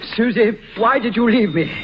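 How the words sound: It is said with strong emotion.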